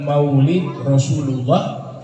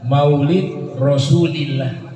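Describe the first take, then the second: First: The last word has a 'u' vowel: Rasulullah. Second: The last word has an 'i' vowel: Rasulillah. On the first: The speaker calls it wrong. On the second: The speaker calls it right.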